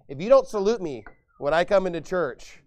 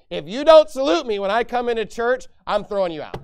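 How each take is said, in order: First: Said in the usual way. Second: Louder and higher, a hammed-up furious demand; mock angry pastor. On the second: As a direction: play the petty pastor barking orders.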